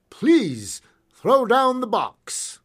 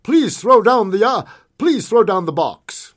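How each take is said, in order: First: Slow, high, loud request; polite firm request. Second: Firm shouted order, high and loud; firm, distinctive call. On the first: Masked gunman to second stage driver, slow raised request. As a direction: draw out the polite demand, slowly. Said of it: "the masked gunman requested". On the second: Masked gunman halting a stagecoach, firm loud call. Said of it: "In a firm, distinctive voice, he called out". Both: A narrator's reading.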